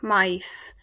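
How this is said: The final s sounds like s.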